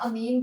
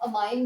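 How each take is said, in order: First: The second vowel sounds like 'ee'. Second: The second vowel sounds like 'eye'. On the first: "या अमीन बोल लें, कोई फर्क नहीं पड़ेगा" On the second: "आप अमाइन बोल लें"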